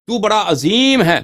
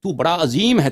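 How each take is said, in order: First: Azeem called out much higher, louder and slower; slow, loud, exalted praise of God; emphatic glorifying shout. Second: Said in the usual way. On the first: Shown as a demonstration. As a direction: proclaim تو بڑا عظیم ہے with rising awe, stretching Azeem. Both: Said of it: "تکرار کرتے ہیں تفخیم کے لیے".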